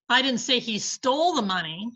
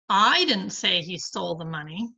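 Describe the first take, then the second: First: The stress falls on the word stole. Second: The stress falls on the word I. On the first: He got the money another way. "but he has the money" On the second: Someone else said it. "but somebody did"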